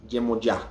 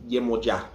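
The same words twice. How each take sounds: Both takes have the same delivery.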